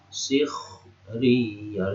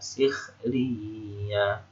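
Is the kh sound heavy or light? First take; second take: heavy; light. First: The kh sound is heavy and thick. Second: The kh sound is light and thin. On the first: The speaker calls it wrong. "harusnya kan begitu, tapi enggak" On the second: The speaker calls it right. "tapi enggak, sikhriya"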